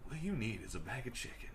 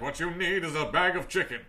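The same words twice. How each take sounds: First: It is said in a relaxed, natural, conversational voice. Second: It is said in a big, booming announcer voice. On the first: This is the relatable style wanted today. The speaker calls it right. "they want voices that are, like, relatable" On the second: This is the old commercial style. The speaker calls it wrong. "they don't need the announcer voice anymore"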